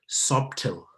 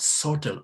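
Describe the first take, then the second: First: The word is said with a sounded B. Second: The word is said with a silent B. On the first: The speaker calls it wrong. "many people pronounce this word as subtle. No, please" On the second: The speaker calls it right. "We talk about subtle"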